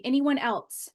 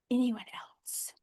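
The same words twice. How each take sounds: First: Said in the usual way. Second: Slow, drawn-out whisper; hushed, lingering whispered question. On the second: Real, not acted. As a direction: whisper it out slowly to the silent group. Whispered repeat to silent group.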